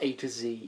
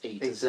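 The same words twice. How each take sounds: First: The letter Z is said the American way. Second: The letter Z is said the Canadian way. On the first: The speaker calls it wrong. "Americans, it's not A to Z" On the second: The speaker calls it right. "that is actually the correct way of pronouncing that"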